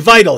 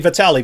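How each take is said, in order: First: "vital" said like the English word; misread as "vital". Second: "Vitali" in three syllables, vi-TAL-ee; name pronounced "Vitali". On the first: Explaining a viewer's misread name, "vital" as the English word. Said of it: "he's not saying vital". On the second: Correcting co-host on a boxer's name, "Vitali" with an ee ending. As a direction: sound the final i of "Vitali" as ee. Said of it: "He's saying Vitali". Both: Shown as a demonstration.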